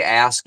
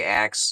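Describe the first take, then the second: First: Said in the usual way. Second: "axe" for ask, with the k before the s; dialect "axe". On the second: Shown as a demonstration. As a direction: say "axe" with its last sounds swapped to ks. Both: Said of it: "when you say ask, you say axe".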